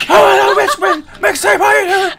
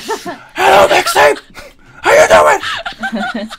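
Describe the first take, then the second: First: Imitating a shouted whisper; mock loud whisper, laughing; stage whisper. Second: Mock shouted whisper; imitating a booming whisper greeting; stage whisper. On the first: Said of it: "the loudest whisper I've ever heard". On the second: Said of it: "Cole was like".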